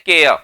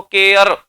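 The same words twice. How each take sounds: First: "केयर" ending in an open "uh", r left unsaid; silent r. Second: "केयर" with the final r fully sounded; wrong pronunciation. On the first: Teacher showing the English way, r left silent. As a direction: break off "केयर" just before the r. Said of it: "रे बोलते बोलते रह गया". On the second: Teacher showing how not to say it, r fully pronounced. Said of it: "ऐसे नहीं बोलते हम". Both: Shown as a demonstration.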